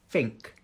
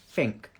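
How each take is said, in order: First: The word begins with an F sound. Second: The same.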